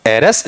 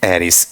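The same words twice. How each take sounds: First: "एरस" ending in a reduced schwa; unstressed form. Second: "एरिस" low, with a clear i at the end; stressed form. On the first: Teacher showing the first of two ways, unstressed. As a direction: say "एरस" with a weak second vowel. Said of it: "जो unstressed है". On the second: Teacher showing the second way, stressed vowel. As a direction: say "एरिस", full short i before the s. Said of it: "stressed में क्या बन जाएगा". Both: Shown as a demonstration.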